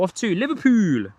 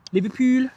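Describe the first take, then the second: First: Said in the usual way. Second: Light mock Scouse, pitched higher; Scouse accent. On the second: Streamer naming the jet's Liverpool destination, mock Scouse accent. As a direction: say Liverpool the Scouse way, raised up high. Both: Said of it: "What do you think to my, uh, Liverpudlian accent?".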